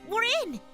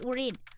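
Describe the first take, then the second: First: It is said in her ordinary voice. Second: It is said in a put-on hacker voice.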